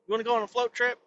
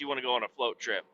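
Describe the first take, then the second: First: Higher, rising invitation; hyped-up sales question; teasing question. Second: Softer, fast and matter-of-fact; low, rushed aside answering yourself; quick confirmation. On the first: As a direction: dangle the offer like a tempting pitch. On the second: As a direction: toss it off as settled. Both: Shown as a demonstration. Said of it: "Fuck yes".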